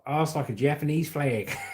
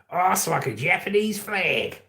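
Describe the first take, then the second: First: It is read in the speaker's normal voice. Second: It is said in a put-on Australian accent.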